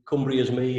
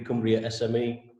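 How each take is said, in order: First: The ending is said as the words 'is me'. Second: The ending is said as the letters S-M-E. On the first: "It could be Cumbria is me" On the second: "it could be Cumbria S M E"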